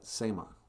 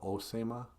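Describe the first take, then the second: First: The word begins directly with an s sound. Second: The word begins with an o vowel. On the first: This is the form used where vowels are dropped. "In Net Lake, they just call it Sema" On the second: This is the form used in some other places. "Some places call it Osema"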